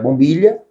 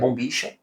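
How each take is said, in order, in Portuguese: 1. A consoante do meio é um 'ly' suave. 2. A consoante do meio é um chiado 'sh'. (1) "dependendo do espanhol do Paraguai" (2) "do espanhol do Uruguai é bombicha, que lá tem um chiado"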